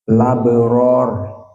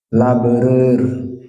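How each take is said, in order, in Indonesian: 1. Vokal terakhir penuh dan terbuka. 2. Vokal terakhir condong ke arah 'e'. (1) "harakatil Hamzah change to the lam" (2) "we'll be reading labrer because an at-taqlil"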